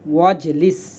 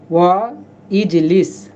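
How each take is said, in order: First: The two words are run together as one. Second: The two words are split with a separate vowel. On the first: "সরাসরি পড়ে ফেলব" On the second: "ভেঙে বলতে পারেন"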